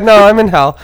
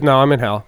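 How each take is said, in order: First: Very high, loud, laughing repeat; helpless laughter over the quoted line; laughing imitation. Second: Loud, emphatic mock answer; punchy retold comeback; imitated blunt reply. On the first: Real, not acted. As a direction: crack up while mimicking the comeback. Laughing while repeating mom's answer. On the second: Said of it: "Just like that".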